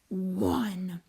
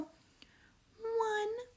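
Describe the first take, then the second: First: It is said in a deep, monster-like voice. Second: It is said in a tiny, babyish voice. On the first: "count in a deep monster voice" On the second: "count in a baby tiny voice with me"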